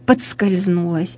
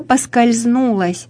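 First: It is said with a d sound after po. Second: It is said without a d sound after po. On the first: The speaker calls it wrong. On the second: The speaker calls it right.

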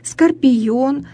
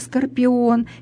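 First: A y sound is inserted between the vowels. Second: The vowels follow each other with no consonant. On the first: It is a colloquial pronunciation. The speaker calls it wrong. "в просторечии такое произношение" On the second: It is the standard pronunciation. The speaker calls it right. "вместо"

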